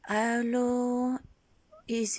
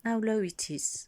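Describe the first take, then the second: First: Higher test tone. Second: Whisper. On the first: Testing her voice pitch. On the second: Checking her low voice. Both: Shown as a demonstration.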